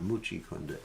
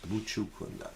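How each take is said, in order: First: The first word ends in an 'ee' vowel. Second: The first word ends in an 'oo' vowel. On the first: The speaker calls it wrong. "It's not Muchi Kunda" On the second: The speaker calls it right. "it's Muchu Kunda"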